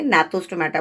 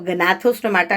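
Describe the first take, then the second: First: The word starts with an n sound. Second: The word starts with a g sound. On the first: The speaker calls it right. "नाथोस्टोमाटा बोलते हैं" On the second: The speaker calls it wrong. "जी साइलेंट है इसमें तो उसको गनाथोस्टोमाटा नहीं बोलेंगे"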